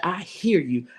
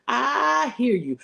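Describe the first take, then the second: First: Said in the usual way. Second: I hear you stretched slow and lifted high; slow, high, sympathetic echo; drawn out high. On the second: Acted. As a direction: lean in and draw out I hear you, pitched up. Preacher repeating, drawn out.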